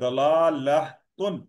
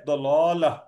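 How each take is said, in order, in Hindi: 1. यह शब्द पूरी 'atun' आवाज़ से खत्म होता है। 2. यह शब्द हल्की 'ah' आवाज़ से खत्म होता है। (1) "आप पढ़ना चाहे तो फिर इस तरह पढ़ें" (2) "पर जब इस ता पे जब हम रुकते हैं तो ये हा की आवाज देती है"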